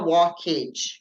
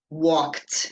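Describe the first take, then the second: First: The ending is sounded as a separate 'ed' syllable. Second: The ending is a short 't' sound, no extra syllable. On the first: The speaker calls it wrong. "a gente não fala walked, talked, com esse E aí" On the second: The speaker calls it right. "o E D teria o som de T"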